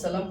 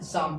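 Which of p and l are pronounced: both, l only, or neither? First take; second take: l only; neither. First: Only the l sound is pronounced. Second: Neither the p nor the l is pronounced. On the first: The speaker calls it wrong. "ना ही सलम पढ़ना है" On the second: The speaker calls it right. "शाम पढ़ना है"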